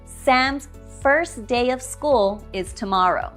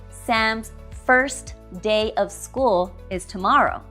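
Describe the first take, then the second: First: The T at the end of 'first' is dropped. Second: The T at the end of 'first' is pronounced. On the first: The speaker calls it right. "We will drop the T in first" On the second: The speaker calls it wrong. "Notice I did not say"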